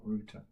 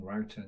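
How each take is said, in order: First: Router said as "rooter", softer; British router. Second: Router said as "rowter"; American router. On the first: Host giving partner's preferred form, "rooter" for router. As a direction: give router an "oo" vowel, like "hooter". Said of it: "saying router, not router". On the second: Host quoting what partner objects to, "rowter" for router. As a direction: give router an "ow" vowel, like "doubter". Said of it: "telling me off about saying router". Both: Shown as a demonstration.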